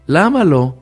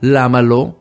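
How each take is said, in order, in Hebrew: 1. נאמר כשאלה פתוחה ומלאת תקווה. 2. נאמר בטון מתלונן ושלילי. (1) "בוא נשאל שאלה" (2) "לא כל הזמן לראות שלילי"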